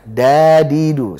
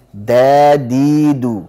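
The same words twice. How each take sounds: First: Dadidu drawn out with the tongue too high; slow, louder dadidu from the palate; wrong dal again. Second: Dadidu slow, tongue on the base of the upper teeth; drawn-out Dadidu from the right spot; correct dal. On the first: Teacher repeating the wrong dal as a contrast. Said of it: "Kalau tadi dadidu di sana". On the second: Teacher contrasting the correct dal with the wrong one. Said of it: "Sekarang dadidu". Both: Shown as a demonstration.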